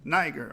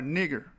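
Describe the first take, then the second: First: The first vowel is a long 'eye' sound. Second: The first vowel is a short 'ih' sound. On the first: The speaker calls it wrong. "you don't get the nigh in the Latin language" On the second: The speaker calls it right.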